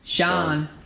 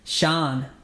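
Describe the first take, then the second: The two takes are said the same way.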